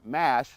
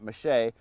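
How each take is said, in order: First: The word is said with a plain English pronunciation. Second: The word is said with a French pronunciation.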